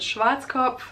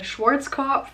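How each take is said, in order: First: It is pronounced the way Germans say it. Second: It is pronounced the way English speakers say it. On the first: This is how Germans say the name. "We call it Schwarzkopf" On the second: This is how foreigners say the name. "is what you call it"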